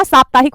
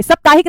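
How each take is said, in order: First: साप्ताहिक with long first 'aa'; correct pronunciation. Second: साप्ताहिक with short first vowel, "sap-taahik"; higher, louder "SAP-taahik" for साप्ताहिक; wrong pronunciation. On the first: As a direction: say साप्ताहिक as "SAAP-taahik". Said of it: "साप्ताहिक होता है". (साप्ताहिक में लंबा 'सा') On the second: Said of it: "साप्ताहिक नहीं होता". (साप्ताहिक को 'सप्ताहिक' बोलना) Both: Shown as a demonstration.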